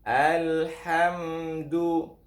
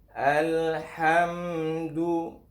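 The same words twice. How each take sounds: Both takes have the same delivery.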